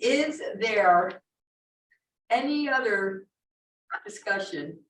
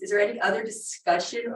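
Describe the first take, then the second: First: The question is spoken very slowly. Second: The question is spoken at a normal pace.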